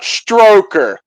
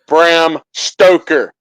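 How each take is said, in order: First: The name starts with str, with an r. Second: The name starts with st and no r. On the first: The speaker calls it wrong. "people say Bram Stroker instead of Stoker" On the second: The speaker calls it right. "Bram Stoker, not Stroker"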